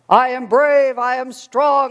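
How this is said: It is said in a big, bold voice.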